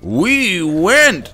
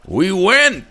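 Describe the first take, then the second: First: The phrase is said more slowly. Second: The phrase is said quickly. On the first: The speaker calls it right. "There you go" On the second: The speaker calls it wrong. "that's a little too fast"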